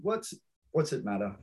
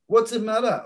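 First: Softer repeat. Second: Quoted catchphrase. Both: Retold or imitated. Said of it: "I love that one".

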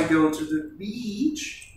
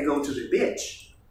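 First: "beach" with a long ee, said slowly and carefully; correct English vowel. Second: "bitch" with a short i, said slowly in English; wrong short vowel. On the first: Teacher showing students the right vowel in "beach", slow and clear. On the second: Teacher showing students the wrong short vowel, slow and clear. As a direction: clip the vowel in "bitch" to show the embarrassing mistake. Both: Shown as a demonstration. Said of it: "no es lo mismo que".

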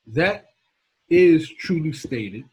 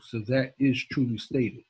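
First: "that" lifted, then "is truly stated" drawn out slow and pressed hard; slowed-down, weighty "is truly stated"; slow emphasis. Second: Said in the usual way. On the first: Shown as a demonstration. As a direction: lean on "is" and stretch "truly stated". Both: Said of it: "I'll say it one more time".

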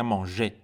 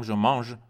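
First: "مانژه" ending in a clear "ay" vowel; final É pronounced. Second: "je mange" ending on the ZH sound; silent final E. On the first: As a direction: sound the last vowel of "مانژه", with R silent. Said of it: "باید او آخرش تلفظ بشه". (تلفظ «مانژه» با اِ واضح در آخر) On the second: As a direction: say "je mange" with no vowel after the ZH. (تلفظ «je mange» بدون صدای اِ در آخر) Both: Shown as a demonstration.

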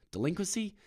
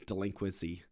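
First: DELINQUENCY pitched high, rising as a question; doubtful question. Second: Said in the usual way. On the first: Real, not acted. Comic doubting his own word, DELINQUENCY as a rising question. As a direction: query the word DELINQUENCY with a sharp upward lift.

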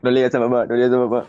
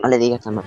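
First: Lightly voiced older brother begging, half laughing; a hint of the sly brother's plea; mock pleading brother. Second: Lightly voiced sibling begging, half laughing; a touch of the sneaky secret plea; mock pleading. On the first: Teasing brother mimics the plea to keep mom out, mock pleading. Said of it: "le decía lo mismo que decía tu hermano". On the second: Sibling hides sweets and begs for silence, mock pleading.

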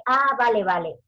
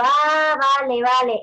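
First: A mock "Ah, vale, vale" with a punched "Ah" and falling "vale"; mimicked catchphrase. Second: Loud "Ah" then falling "vale, vale"; own catchphrase. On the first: A mother quoting the teacher's "Ah, vale, vale" habit, mock falling tone. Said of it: "¿Quién de vosotras dice". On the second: Retold or imitated. Teacher telling a mother "Ah, vale, vale", loud casual agreement. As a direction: burst out "Ah, vale, vale", "Ah" louder and higher. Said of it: "estaba hablando yo con la madre y digo".

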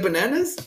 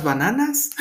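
First: Said in the usual way. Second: "bananas" pronounced as if it were Spanish; Spanish accent. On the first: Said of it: "translated in Spanish like that". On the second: Shown as a demonstration. Giving an example of his Spanglish slip, Spanish accent. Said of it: "But with the Spanish accent".

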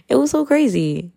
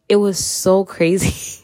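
First: Higher, laughing disbelief. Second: Slow, drawn-out disbelief; slow and weighty. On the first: Laughing at her past self, high and amazed. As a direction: pitch jumps high on "crazy". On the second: Looking back on her old self, slowly amazed. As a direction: let each word of "It was so crazy" land slowly. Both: Shown as a demonstration.

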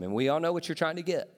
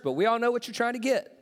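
First: Said in the usual way. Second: Higher, fast knowing tease. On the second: Shown as a demonstration. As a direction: let them know you see through it. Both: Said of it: "I know it's church".

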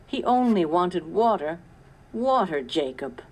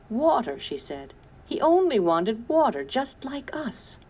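First: Lightly voiced tearful plea; a hint of crying in the voice. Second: High, louder tearful lament, fading at the end; crying. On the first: Sarah grieving the coyote to Jacob, mild tearful plea. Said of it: "Sarah began to cry". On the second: Sarah in tears over the thirsty coyote, lightly voiced crying. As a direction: let the grief break through on water. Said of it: "Tears streamed down Sarah's face". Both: A narrator's reading.

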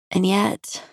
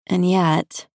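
First: "And yet" lifted up in a hesitant rise; first "And yet" rising, searching. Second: "and yet" settling down in a falling tone; second "and yet" falling, conceding. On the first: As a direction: let "yet" climb as if unsure. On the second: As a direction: let "yet" drop, resigned. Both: A narrator's reading. Narrator repeats phrase, musing.

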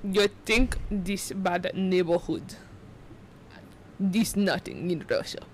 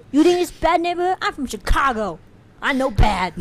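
First: Slow, measured Russian accent; low-tongued, deliberate Russian accent; realistic Russian accent. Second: Higher, louder mock Chicago accent; bad Chicago-Russian accent. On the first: Shown as a demonstration. Showing friend the tongue trick, slow Russian accent. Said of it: "more realistic sounding Russian accent". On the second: Mocking own failed attempt, loud Chicago-tinged accent. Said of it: "That was Chicago".

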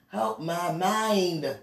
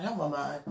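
First: Slow, stretched-out plea; drawn-out plea. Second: Said in the usual way. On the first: Real, not acted. Woman begging God to help her mind, drawn-out plea. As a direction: drag out each word, lingering on "mind".

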